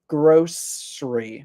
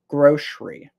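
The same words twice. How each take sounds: First: The middle consonant is an S sound. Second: The middle consonant is an SH sound. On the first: "with the S sound from the C" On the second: "I pronounce it with the S H sound"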